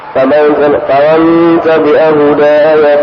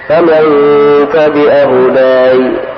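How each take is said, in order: First: The last word runs on into the next words. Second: The phrase stops short after the last word. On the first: The reciter continues without pausing. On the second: The reciter pauses here.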